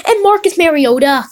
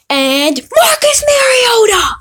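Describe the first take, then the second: First: Said in the usual way. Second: Excited shout. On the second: Real, not acted. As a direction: yell the name out in triumph. Shouts name at big pull.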